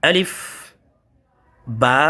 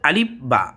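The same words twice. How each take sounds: First: The vowel of 'ba' is drawn out long. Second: The vowel of 'ba' is cut short. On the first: The speaker calls it right. "বাকে একটু টেনে পড়তে হবে, এক আলিফ টান হবে" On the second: The speaker calls it wrong. "আমরা অনেকে পড়ি আলিফ, আলিফ বা, এটা যেন না হয়"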